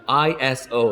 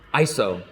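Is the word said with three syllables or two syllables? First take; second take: three syllables; two syllables. First: It is said with three syllables. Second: It is said with two syllables. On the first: "that's three syllables" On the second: "two syllables. It's a lot quicker to say"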